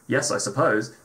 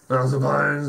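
First: Said in the usual way. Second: Lightly imitated West Country farmer; a hint of West Country farmer accent. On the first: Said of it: "then it gets translated to". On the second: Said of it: "this is like the one guy going".

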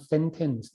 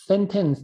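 First: "sentence" as SEN-tence, stress on SEN; first-syllable stress. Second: "sentence" as sen-TENCE, weight on the final syllable; Thai-style reading. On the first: Teacher corrects the Thai reading, "sentence" stressed on SEN. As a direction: hit the first syllable of "sentence", keep the second short. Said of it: "มันต้อง stress พยางค์แรก". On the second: Teacher shows how Thais read it, "sentence" as sen-TENCE. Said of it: "คนไทยอ่านว่า sentence ใช่ไหม". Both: Shown as a demonstration.

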